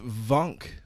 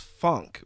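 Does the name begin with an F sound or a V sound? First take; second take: V; F. First: The name begins with a V sound. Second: The name begins with an F sound. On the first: The speaker calls it right. "It's Vunk with a V" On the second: The speaker calls it wrong. "I thought his last name was Funk with a F"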